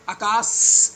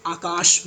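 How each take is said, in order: First: आकाश ending in a long hissed plain S; आकाश said as "aakaas"; wrong final sibilant. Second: आकाश with a clear SH at the end; आकाश ending in a hushed SH, not S; correct SH ending. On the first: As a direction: say आकाश with a drawn-out dental S, as in "see", at the end. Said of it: "ये वाला स नहीं है". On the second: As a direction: say आकाश as "aakaash". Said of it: "आकाश बोलते हैं इसको". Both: Shown as a demonstration.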